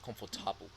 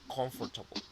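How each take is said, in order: First: The stress is on the third syllable. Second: The stress is on the first syllable. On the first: This is how the word sounds in German. "en alemán es que el acento es en la A" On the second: This is how the word sounds in English. "en inglés el acento es en el com"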